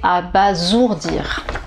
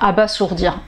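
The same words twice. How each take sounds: First: The middle consonant is a buzzing Z sound. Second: The middle consonant is a hissing S sound. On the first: The speaker calls it right. "S entre deux voyelles, ça fait Z" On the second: The speaker calls it wrong. "je vais peut-être prononcer aussi comme ça"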